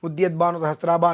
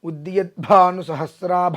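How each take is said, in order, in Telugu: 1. ఒత్తిన హల్లులను మెత్తగా, సాదాగా పలుకుతారు. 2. ఒత్తిన హల్లులను బలంగా, స్పష్టంగా పలుకుతారు.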